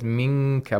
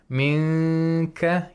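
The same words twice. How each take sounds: First: The nasal nun sits fully at the kaf position. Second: The nasal nun only approaches the kaf position. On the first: "he says minka" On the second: "Instead of saying minka"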